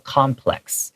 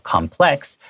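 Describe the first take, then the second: First: The stress is on the first syllable. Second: The stress is on the second syllable. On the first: It is a noun meaning a group of buildings. "as a noun, complex is read with the accent on the first syllable" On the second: It is an adjective meaning complicated or multilayered. "it has the accent on the, the second syllable"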